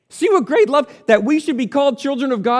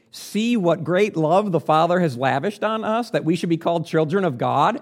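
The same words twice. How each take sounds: First: Much higher and louder, in wonder; rising wonder at God's love; exclaiming. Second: Said in the usual way. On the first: Shown as a demonstration. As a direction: proclaim it in awe. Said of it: "That's, that's what he said". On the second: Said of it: "John says".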